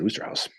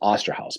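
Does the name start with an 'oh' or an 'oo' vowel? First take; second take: oo; oh. First: The first vowel sounds like 'oo'. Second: The first vowel sounds like 'oh'. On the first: "I've always pronounced it Oosterhouse" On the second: "but it says Osterhouse"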